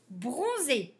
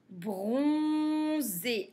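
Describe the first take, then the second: First: Said in the usual way. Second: "Bronzé" slow, with a long "on"; syllable by syllable. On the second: Shown as a demonstration. Teacher reading words for beginners, "Bronzé" sounded out. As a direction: hold "Bron", then add "zé".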